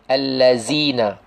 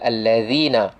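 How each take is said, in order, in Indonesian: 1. Huruf tengah itu bunyi z biasa. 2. Huruf tengah itu bunyi th bersuara. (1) "kurang tepat menyebut huruf, zal dengan zai"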